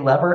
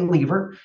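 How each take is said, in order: First: The word is said the US way. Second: The word is said the Canadian way.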